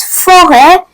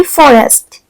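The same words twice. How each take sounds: First: Forêt with a silent S, ending on an open "eh"; modern French pronunciation. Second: Forest with the S sounded, as in English; old form with S. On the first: Teacher shows the modern French word, silent S in forêt. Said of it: "in the modern French". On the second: Teacher shows the old French word, S sounded in forest. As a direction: pronounce the S and T in forest. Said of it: "in the old French, it used to be". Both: Shown as a demonstration.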